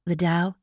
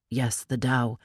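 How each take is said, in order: First: Dao asked with a rising question tune; puzzled query on "Dao", rising; checking the word "Dao" with a lift. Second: "Dao" said lower and falling, settled; calm confirmation landing down on "Dao"; matter-of-fact reply on "Dao"; confirming. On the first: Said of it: "Tinker questioning". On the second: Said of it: "Pony confirms". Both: A narrator's reading.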